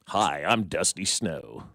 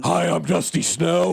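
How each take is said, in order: First: Low, very slow mock stripper introduction. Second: Higher, slow put-on stripper greeting. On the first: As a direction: draw it out low as a put-on stripper. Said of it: "That's a great stripper name". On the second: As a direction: play the stripper drawn out and pitched up. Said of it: "that's what her voice sounds like".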